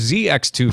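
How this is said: The letter Z is said the American way.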